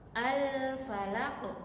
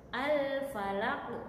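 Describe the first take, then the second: The two takes are said the same way.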